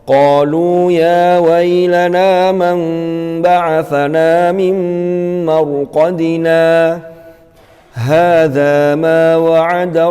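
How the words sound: It stops fully after marqadina, taking a breath. The speaker calls it right. "Itu kalau wakaf di mim marqadina"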